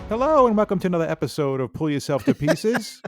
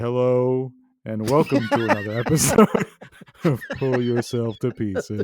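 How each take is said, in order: First: The voice is very high and overexcited. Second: The voice is at a normal, calmer pitch.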